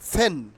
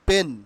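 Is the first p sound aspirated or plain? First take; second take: aspirated; plain. First: The p is aspirated, with a puff of air. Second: The p is plain, without a puff of air. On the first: The speaker calls it right. "পেন will be pronounced ফেন" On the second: The speaker calls it wrong. "Not পেন"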